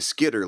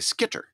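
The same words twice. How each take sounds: First: The middle consonant is a soft D sound. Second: The middle consonant is a crisp hard T. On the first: It is casual everyday speech. "If I'm just talking, I'd probably say Skitter like somebody from the UP" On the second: It is said so listeners get the spelling. "in such a way that somebody makes sure that they get the right spelling"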